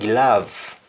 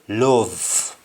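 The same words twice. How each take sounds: First: The o is said like an a sound. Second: The o is said like an o sound. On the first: "like just like the English say" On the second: "in Jamaican we say"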